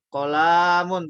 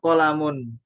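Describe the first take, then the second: First: The vowel in kolamun is drawn out long. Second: The vowel in kolamun is kept short. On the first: The speaker calls it wrong. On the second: The speaker calls it right.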